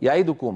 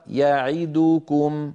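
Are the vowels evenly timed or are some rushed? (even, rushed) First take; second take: rushed; even. First: Some of the vowels are cut short and rushed. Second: All the vowels are held for equal length. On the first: The speaker calls it wrong. "هكذا يخطف بعض الحركات" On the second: The speaker calls it right. "ومثلها يعيدكم"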